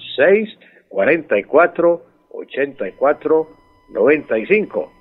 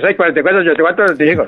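First: The numbers are said slowly. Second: The numbers are said quickly.

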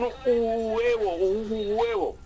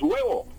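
First: The vowel pair is split into two syllables. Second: The vowel pair is said as one syllable. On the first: The speaker calls it wrong. "porque está separando el diptongo" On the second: The speaker calls it right. "no, es huevo"

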